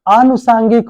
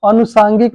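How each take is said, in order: First: The first vowel is long. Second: The first vowel is short. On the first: The speaker calls it right. "आनुसांगिक होता है" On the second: The speaker calls it wrong. "अनुसांगिक नहीं"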